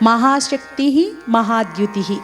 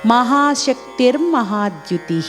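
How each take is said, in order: First: The two names are said as separate words. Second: The two names are joined into one word.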